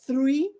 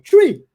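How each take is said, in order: First: It starts with the tongue between the teeth. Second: It starts with a plain t sound. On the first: The speaker calls it right. "colocavam a língua entre os dentes" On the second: The speaker calls it wrong. "o som era o mesmo para mim"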